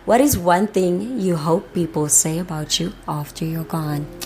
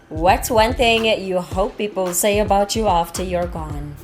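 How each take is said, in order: First: It is asked in a more serious tone. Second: It is asked in a light, casual tone.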